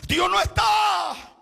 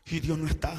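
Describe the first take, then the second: First: "Dios no está" cried out high, loud and slow; high, loud, drawn-out "Dios no está"; shouted refrain. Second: Said in the usual way. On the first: Acted. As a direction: hammer out "Dios no está" slowly at full voice.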